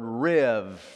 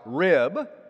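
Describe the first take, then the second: First: The word ends with a v sound. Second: The word ends with a b sound. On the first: "the B is pronounced as a V. So it's the word riv" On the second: "It looks like rib"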